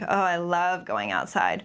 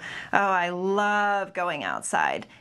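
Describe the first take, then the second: First: The sarcasm is mild, with natural conversational intonation. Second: The sarcasm is heavy, with exaggerated intonation. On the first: "what it would sound like more um, in natural conversation" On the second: "we began with very exaggerated uh, eye rolling and um, intonation of voice"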